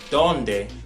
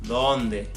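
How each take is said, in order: First: The D is pronounced hard, like English D. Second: The D is pronounced soft, like English th. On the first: The speaker calls it wrong. "It's not donde" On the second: The speaker calls it right. "You see how soft it is?"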